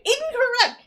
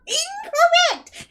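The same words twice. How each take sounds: First: Incorrect called out high and loud; emphatic verdict. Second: Incorrect stretched out slowly, much higher and louder; drawn-out outraged verdict. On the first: Co-host ranting at the movie's Hot Rod, loud emphatic verdict. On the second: Co-host ranting at the movie's Hot Rod, slow drawn-out loud verdict. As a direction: wail Incorrect like a game-show buzzer. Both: Real, not acted.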